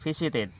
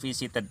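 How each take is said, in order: First: The -ed ending is an extra 'id' syllable. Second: The -ed ending adds no extra syllable. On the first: The speaker calls it right. "dibacanya it ed-nya" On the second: The speaker calls it wrong. "bukan visited"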